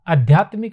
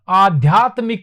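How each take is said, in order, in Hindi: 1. पहला स्वर छोटा 'a' है। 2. पहला स्वर लंबा 'aa' है। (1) "आध्यात्मिक नहीं होता है" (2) "आध्यात्मिक होता है"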